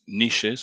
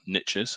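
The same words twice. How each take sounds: First: It is said in a non-American pronunciation. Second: It is said in an American pronunciation.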